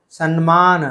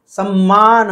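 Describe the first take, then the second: First: सम्मान said as "sanmaana"; Telugu-style mispronunciation. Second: सम्मान with a held "mm"; double m. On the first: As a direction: put an n before मान in सम्मान. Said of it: "Telugu भाषा में बहुत से लोग कहते हैं". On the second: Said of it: "होना चाहिए". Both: Shown as a demonstration.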